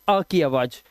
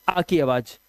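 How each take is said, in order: No difference in how they are said.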